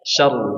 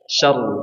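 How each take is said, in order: First: The r sound is heavy and thick. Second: The same.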